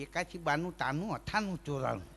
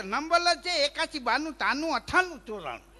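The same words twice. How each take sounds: First: Softly lisped એકાશી બાનું તાનું અઠાણું ચોરાણું; tongue-tied reading of a phone number. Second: Higher, insistent અઠાણું ચોરાણું with a lisp; lisped numbers. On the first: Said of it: "કે". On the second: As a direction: repeat the number stubbornly, still lisping. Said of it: "તો કે". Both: Retold or imitated.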